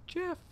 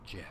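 First: Put-on high falsetto girl voice. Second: Said in the usual way. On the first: Shown as a demonstration. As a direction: squeak it out like a young woman. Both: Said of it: "I'm sorry, girl voice".

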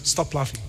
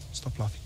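First: Said in the usual way. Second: Much softer, dropped low; a hushed second telling-off; quieter aside. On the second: Real, not acted. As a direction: mutter it almost to yourself.

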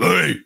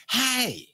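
First: Louder mock coach's holler; Ed Orgeron. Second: High-pitched mock-drunk yelp; Billy Gillispie. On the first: Host shows how his other coach impression differs, loud holler. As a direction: bellow it as a hammed-up coach impression. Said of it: "My Orgeron, you can". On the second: Host shows his impression of an intoxicated coach, high drunken yelp. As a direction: throw out a high, intoxicated call. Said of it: "it just means intoxicated".

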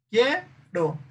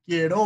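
First: "quiero" stressed on the first syllable, QUIE-ro; acento en QUIE. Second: "quiero" wrongly stressed on the last syllable, quie-RÓ; acento en RO. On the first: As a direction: hit QUIE high, drop "ro". ("quiero" con acento en QUIE) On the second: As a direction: push the stress onto RO. ("quiero" con acento final, quie-RÓ) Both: Shown as a demonstration. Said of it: "es en el quie".

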